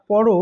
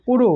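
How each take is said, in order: First: পর said as "pɔro"; open vowel in পর. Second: পুরো said as "poro"; closed vowel in পুরো. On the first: Teacher showing the present imperative, পর as "pɔro". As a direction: say পর with an open "aw", ending in "o". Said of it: "তখন সেটার উচ্চারণ আর পরও হবে না". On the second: Teacher showing the future imperative, পুরো as "poro". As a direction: say পুরো with a closed "o" in both syllables. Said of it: "তখন সেটার উচ্চারণ". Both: Shown as a demonstration.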